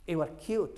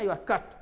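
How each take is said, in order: First: "cute" said as kyoot, with the y glide; correct pronunciation. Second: "cut" with a short flat u and no y glide; wrong pronunciation. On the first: Teacher showing students the right way to say cute. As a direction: say "cute" as kyoot, not cut. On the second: Teacher showing students the common mistake with cute. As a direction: mispronounce it as cut, like kut. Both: Shown as a demonstration. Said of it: "कट नहीं बोलना ना".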